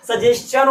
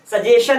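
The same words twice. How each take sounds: First: सजेशन with s-chan at the end, suh-JES-chun; सजेशन said slowly with the s-t-ch sound, the version marked right; correct pronunciation. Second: सजेशन with a plain sh sound, suh-JAY-shun; wrong pronunciation. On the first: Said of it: "सजेशन होता है". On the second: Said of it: "सजेशन नहीं होता". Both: Shown as a demonstration.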